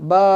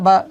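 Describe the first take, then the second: First: The vowel is long, stretched out. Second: The vowel is short, not stretched. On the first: "বা ফাতহা মামদুদা বা" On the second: "বা ফাতহা বা"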